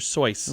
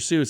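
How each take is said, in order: First: The name rhymes with choice. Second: The name rhymes with juice. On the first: The speaker calls it right. "it's Doctor Soyce" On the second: The speaker calls it wrong. "it's not Doctor Seuss"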